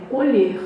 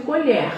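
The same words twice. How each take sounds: First: "colher" with a closed e, like "ê". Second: "colher" with an open e, like "é". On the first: Teacher showing the verb, "colher" with a closed e. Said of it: "E quando é verbo". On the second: Teacher showing the noun, "colher" with an open e. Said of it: "Quando é substantivo". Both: Shown as a demonstration.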